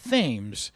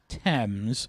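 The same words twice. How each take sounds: First: It is said the local way, unlike the river. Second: It is said like the river in England. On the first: "but they pronounce it Thames" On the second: "like the uh, the river in England"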